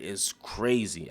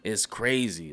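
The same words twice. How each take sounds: First: It's crazy. drawn out slow and soft; slow quiet repeat. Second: Said in the usual way. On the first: Real, not acted. Vlogger repeating his point to viewers, slow and soft. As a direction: let "crazy" sink, slower and hushed. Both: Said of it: "Like, it's crazy".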